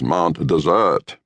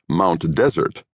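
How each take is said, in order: First: Desert is stressed on the second syllable. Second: Desert is stressed on the first syllable.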